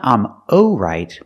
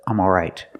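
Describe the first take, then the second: First: The first vowel sounds like oh. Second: The first vowel sounds like aw. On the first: The speaker calls it wrong. "Not I'm oh right" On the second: The speaker calls it right. "but I'm alright"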